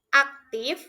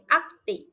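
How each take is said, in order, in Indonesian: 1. Kata ini diakhiri dengan bunyi F. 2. Kata ini diakhiri dengan vokal, tanpa F.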